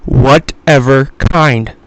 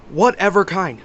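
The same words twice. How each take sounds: First: WHATEVER KIND slow and loud, each word set apart; slow emphatic quote. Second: Said in the usual way. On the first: Retold or imitated. Homeless man telling me what to buy, slow and emphatic. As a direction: punch out "Whatever kind" word by word, much louder. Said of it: "he told me, listen to this".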